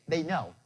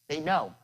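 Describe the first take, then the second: The two takes are said the same way.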